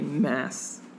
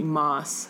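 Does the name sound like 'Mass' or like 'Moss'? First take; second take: Mass; Moss. First: The vowel sounds like the start of Massachusetts. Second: The vowel sounds like the word moss. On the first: "like Massachusetts" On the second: "even though I think it should be Moss"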